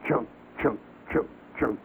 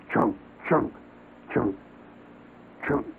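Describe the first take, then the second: First: Chunks doubled up fast, a bit softer; quick chopping sound. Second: Spaced chunk sounds, one axe stroke each; steady chopping sound. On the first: Describing the bug's extra quick chops, quick axe mimicry. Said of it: "a couple of extra quick chops". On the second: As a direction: chop out each chunk with a pause between. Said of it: "somebody does when they're chopping wood". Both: Retold or imitated.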